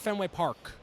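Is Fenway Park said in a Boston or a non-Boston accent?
non-Boston. It is said in a non-Boston accent. The speaker is an outsider. The speaker calls it wrong.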